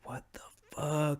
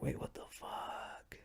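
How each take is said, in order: First: Higher, softer voiced disbelief; softly voiced stunned what the fuck; baffled. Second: Hushed shocked whisper; stunned whispered what the fuck. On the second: Retold or imitated. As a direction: whisper it like you got caught off guard. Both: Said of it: "and now you're like".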